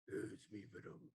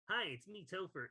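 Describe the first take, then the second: First: It is said in a deep voice. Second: It is said in a normal voice.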